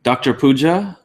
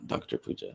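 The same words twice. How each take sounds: First: Said in the usual way. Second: Whispered Doctor Puja, no voice. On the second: Real, not acted. Repeating a viewer's name to himself, whispered.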